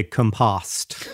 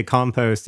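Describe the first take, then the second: First: Compost turned into com-POSST, short o at the end; mocking fake English pronunciation. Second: Said in the usual way. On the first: Teasing co-host's idea of English, compost ending in posst. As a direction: mimic a bad British compost with a short second o. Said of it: "you think they say compost". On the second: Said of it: "the way that English people say".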